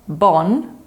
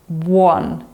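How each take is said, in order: First: The U vowel is dropped, sounding like bon. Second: The U vowel is clearly pronounced before the o. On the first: The speaker calls it wrong. "So it's not bon" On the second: The speaker calls it right. "but it's buon"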